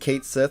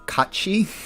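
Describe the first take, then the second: First: It is said as it is spelled, English-style. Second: It is said the Gaelic way, sounding like 'Kachi'. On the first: This is the familiar, customary version of the name. "that's the traditional way people pronounce it" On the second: This is the name's original form. "that is actually pronounced Kachi because it's um it's like Gaelic"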